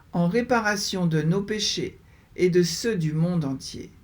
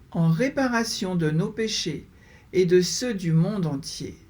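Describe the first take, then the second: No difference in how they are said.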